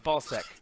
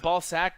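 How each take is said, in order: First: The last syllable has the vowel of 'sec'. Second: The last syllable has the vowel of 'sack'. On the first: The speaker calls it right. "it's sec, is ball sec" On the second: The speaker calls it wrong. "I keep saying sack, like ball sack"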